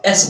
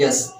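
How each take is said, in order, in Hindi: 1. यह सीधे स्वर की ध्वनि से शुरू होता है। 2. यह य की ध्वनि से शुरू होता है, जैसे 'yes'। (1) "एस बोलते हैं" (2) "यस नहीं बोलते ... नहीं ये गलत है आपका"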